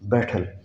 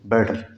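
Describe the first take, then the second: First: The middle consonant is a clear t sound. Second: The middle consonant sounds like a soft d. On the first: This is the usual non-American reading. "जैसे अब इसको हम क्या पढ़ते हैं" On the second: This is how Americans and Canadians say it. "अब ये डी की आवाज़ आ जाएगी"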